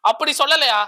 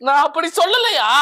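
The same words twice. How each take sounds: First: Said in the usual way. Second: Indignant disbelief. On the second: Acted. Mock indignant denial to interviewer.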